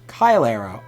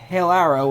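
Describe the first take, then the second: First: The first vowel sounds like 'eye'. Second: The first vowel sounds like 'ay' in 'day'. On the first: It follows Latin pronunciation. "Latin A E sounds like A I" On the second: It follows how the spelling looks. "I always go with the A E"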